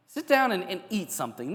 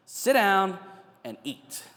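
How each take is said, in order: First: Sit down much higher and louder, and eat something more level; emphatic command. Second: Louder and higher on sit down, then and eat drops to a breathy near-whisper; Sit down said loud and high, and eat let fall almost to a whisper; firm calming command. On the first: Jesus urging a stressed person to sit, emphatic and high. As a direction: push Sit down high and loud like a caring insistence. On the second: Jesus settling an anxious human being, firm then hushed. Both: Retold or imitated. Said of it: "Jesus knows exactly how to calm down a human being".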